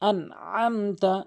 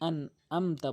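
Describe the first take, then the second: First: The middle consonant is a throaty ain. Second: The middle consonant is plain, without throat tension. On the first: The speaker calls it right. "আইনটি হলকের মাঝখান থেকে" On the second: The speaker calls it wrong. "এরকম নামাজ হবে না"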